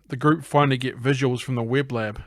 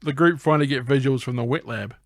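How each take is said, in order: First: "web" ending in b, in place of "wet"; misread word. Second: "wet" ending in t before "lab"; corrected word. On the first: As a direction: say "web lab" with a b closing "web". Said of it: "sorry, that's gonna be wet lab". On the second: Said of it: "that's gonna be wet lab". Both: Real, not acted.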